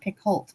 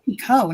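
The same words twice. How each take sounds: First: The final T is pronounced. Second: The final T is silent. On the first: This is how many people mistakenly say the name. The speaker calls it wrong. "not Picoult" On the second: This is how the author says her own name. The speaker calls it right. "actually Picoult"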